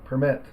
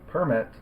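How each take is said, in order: First: The stress is on the second syllable. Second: The stress is on the first syllable. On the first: "the second syllable is stressed" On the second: "the first syllable is stressed"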